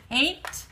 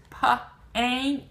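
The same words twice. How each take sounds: First: Said in the usual way. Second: "pa-ain't-ta" slowly in separate sounds, p, ain, t; sounding out. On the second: Shown as a demonstration. Teacher sounding out paint for learners, "pa-ain't-ta" piece by piece. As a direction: break "pa-ain't-ta" apart with gaps. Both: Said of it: "It's in the middle".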